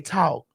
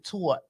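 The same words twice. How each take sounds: First: It is said in a Southern accent. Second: It is said in a New York accent.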